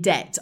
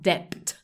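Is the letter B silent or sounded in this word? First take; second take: Silent; Sounded. First: The B is silent in the word. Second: The B is sounded in the word. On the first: The speaker calls it right. "we don't pronounce the B" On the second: The speaker calls it wrong. "It's not debt"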